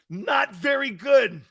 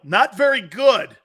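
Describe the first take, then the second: First: Slow exaggerated holler; slow mock shout. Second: Said in the usual way. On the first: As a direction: belt it out slowly for the crowd. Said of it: "shouted again slower".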